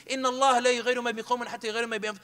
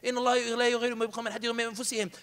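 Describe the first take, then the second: First: Fast rattled-off Quran verse; angry quick recital; rushed recitation. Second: Fast recitation. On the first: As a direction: fire the ayah off in one breath. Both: Retold or imitated. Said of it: "I even used an ayah".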